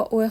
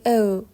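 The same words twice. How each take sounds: First: Said in the usual way. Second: "او" fronted to German ö, unlike plain o; German o-umlaut. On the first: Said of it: "با او خالی". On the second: Shown as a demonstration. Teacher contrasts it with plain o, "او" as ö. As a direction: say "او" as a drawn-out ö. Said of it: "چه فرقی با او داره".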